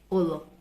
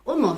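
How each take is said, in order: First: The middle consonant is an l sound. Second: The middle consonant is an n sound. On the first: This is the academic Igbo form. "the academic Igbo says Olo" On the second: This is a dialect form some people chose. "All they did was to switch the le to ne sound"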